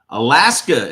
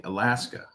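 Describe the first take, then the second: First: Alaska called out loud with a falling tune; remembering a viewer's home state out loud; loud recall. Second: Said in the usual way. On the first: Real, not acted. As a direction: blurt Alaska out as it comes to mind.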